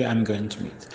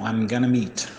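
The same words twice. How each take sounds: First: "going to" said as two clear separate words; teacher contrasting the careful full form. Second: "gonna" run together in one quick slurred word; teacher showing the informal spoken contraction; casual gonna. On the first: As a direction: spell it out the formal way, "I'm going to meet". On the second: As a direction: say it the loose spoken way, "I'm gonna meet". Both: Shown as a demonstration. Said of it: "É a mesma coisa que".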